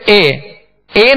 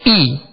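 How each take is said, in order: First: The vowel is a mid 'ay' sound. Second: The vowel is a short high 'ee' sound. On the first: The speaker calls it wrong. "अब इसको हमजा जेर ए ए नहीं पढ़ेंगे" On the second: The speaker calls it right. "बल्कि ई, खींचेंगे भी नहीं"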